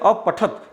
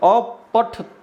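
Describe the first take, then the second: First: The word ends on a bare t consonant. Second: The final t is followed by a full vowel. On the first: It is the third person singular form. "वहां पर त में अ का उच्चारण हम नहीं करते हैं" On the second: It is the second person plural form. "इस त का हम पूरा अ के साथ पूरा उच्चारण करेंगे"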